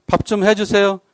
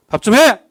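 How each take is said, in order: First: Gentle, courteous request for the meal; polite asking. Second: A louder, higher blunt command for the meal; mock bossy order; curt order. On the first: Acted. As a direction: ask your spouse kindly, no push. Asking spouse to cook politely. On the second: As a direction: bark the demand at your spouse. Ordering spouse to cook.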